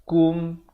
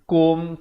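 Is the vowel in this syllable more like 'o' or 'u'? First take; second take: u; o. First: The vowel sounds like a 'u'. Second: The vowel sounds like an 'o'. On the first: The speaker calls it right. "tapi kum, K U M" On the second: The speaker calls it wrong. "bukan K O M"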